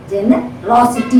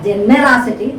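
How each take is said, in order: First: "generosity" with a strong "ros"; stress on third syllable. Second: "generosity" with the weight moved onto "ne"; wrong second-syllable stress. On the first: Teacher corrects the wrong version, third syllable of "generosity" stressed. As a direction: land firmly on "ros" in "generosity". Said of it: "You have to stress the raw". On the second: Teacher shows what not to say, second syllable of "generosity" wrongly stressed. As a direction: punch the "ne" in "generosity", weakening "ros". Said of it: "not generosity". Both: Shown as a demonstration.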